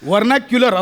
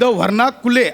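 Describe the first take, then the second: First: The word ends with a 'kyular' sound. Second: The word ends with a short 'kule' sound. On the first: The speaker calls it right. "वर्णाक्युलर असं आहे" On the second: The speaker calls it wrong. "शब्द वर्णाकुले असा नाहीये"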